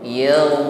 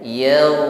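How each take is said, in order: No difference in how they are said.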